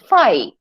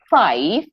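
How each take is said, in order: First: The word ends without any v sound. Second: The word ends with a clear v sound.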